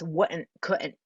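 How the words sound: The words are smushed together with grunty vowels. "smush words together... quite odd, grunty almost noises"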